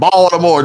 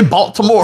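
First: The t in the middle is dropped. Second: The t in the middle is clearly pronounced. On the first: The speaker calls it right. "you can't say that T" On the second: The speaker calls it wrong. "Don't say Baltimore"

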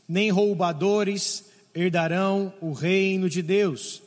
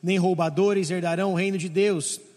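First: It is read at a normal pace. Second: It is read very fast.

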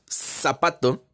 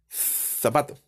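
First: The first sound is an s sound. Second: The first sound is a th sound. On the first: "Nosotros en el español latinoamericano, decimos zapato" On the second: "Con nuestro mejor acento español de España, decimos zapato"

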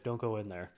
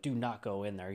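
First: It is said in a very calm way. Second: It is said urgently and forcefully.

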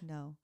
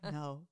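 First: The word is said softly, without much force. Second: The word is said loudly and with force. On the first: The speaker calls it wrong. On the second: The speaker calls it right.

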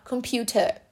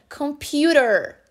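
First: The t is a crisp, fully released t. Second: The t is a quick, soft flap sound. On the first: "No inglês britânico, normal, computer" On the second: "Mas no inglês americano, computer"

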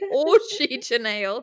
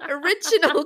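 First: It sounds like 'orgy janelle', read letter by letter. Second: It sounds like the ordinary word 'original'. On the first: The speaker calls it wrong. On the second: The speaker calls it right.

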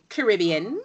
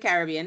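First: It is said the way Trinidadians say it. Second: It is said in the speaker's usual accent.

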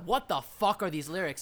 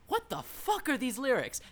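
First: It is said in an annoyed, disapproving tone. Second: It is said in a delighted, amazed tone. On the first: The lyrics are bad. The speaker calls it wrong. "It's not a" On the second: The lyrics are strikingly distinctive. The speaker calls it right. "I don't mean that as a bad thing"

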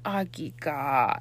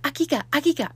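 First: It sounds sad and low. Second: It sounds happy and excited.

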